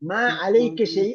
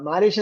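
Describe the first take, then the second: First: The phrase is said as three separate words. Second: The phrase is run together into one short word. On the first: "മാ അലൈക ഷൈ എന്നാണ് ശരിയായ ഉച്ചാരണം" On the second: "നമ്മള് മാലേഷ്യ എന്ന് പറയൂലേ"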